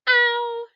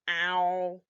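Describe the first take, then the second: First: It is said in a high-pitched voice. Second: It is said in a flat, robotic voice. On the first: "Let's say it with a high voice" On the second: "say it like a robot"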